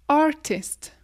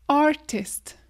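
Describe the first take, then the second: The two takes are said the same way.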